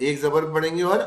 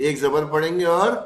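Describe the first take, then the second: No difference in how they are said.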